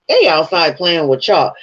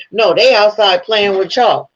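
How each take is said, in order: First: Said in the usual way. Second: Raised, mocking imitation of the wife calling about a dog; mocking wife's tone. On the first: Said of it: "You don't say they outside playing with chalk like that". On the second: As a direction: say it like she means the family dog. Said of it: "sound like she was talking about a fucking dog".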